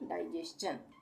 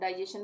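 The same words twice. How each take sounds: First: The last syllable is said with a 'ch' sound. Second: The last syllable is said with a plain 'sh'. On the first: The speaker calls it right. "तो यहाँ पे भी चन का उच्चारण होगा, यानी डाइजेशन" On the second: The speaker calls it wrong. "इसको हम डाइजेशन बोलते हैं ना"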